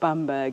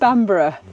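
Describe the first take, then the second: First: The name ends with a short 'berg' sound. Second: The name ends with a longer 'borough' sound. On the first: The speaker calls it wrong. "It's not Bamberg" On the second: The speaker calls it right. "it's Bamborough"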